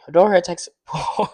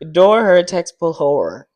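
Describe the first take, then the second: First: The phrase is said at a faster pace. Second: The phrase is said at a slower pace.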